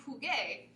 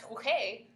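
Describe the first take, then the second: First: Jugué with a hard g sound; correct form. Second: Jugué said huhé with no g sound; the funny wrong version of jugué; wrong form. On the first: Teacher models the right jugué for students. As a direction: say jugué with the proper g. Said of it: "we need to make jugué". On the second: Teacher shows the wrong jugué that sounds funny. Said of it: "which just sounds funny". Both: Shown as a demonstration.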